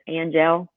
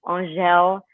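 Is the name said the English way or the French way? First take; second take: English; French. First: It starts with a full 'an' sound. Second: It starts with a soft nasal 'ah' sound. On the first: The speaker calls it wrong. "prettier than" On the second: The speaker calls it right. "the A-N is pronounced like O-N, but you don't even finish the N, it's "ah,""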